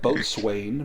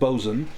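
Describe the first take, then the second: First: It is said fully, as it is spelled. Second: It is said in a clipped, shortened form. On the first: "it's spelled like boatswain" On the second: "but it's pronounced bosun"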